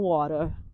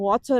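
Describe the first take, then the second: First: It is said with an American accent. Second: It is said the way people say it here.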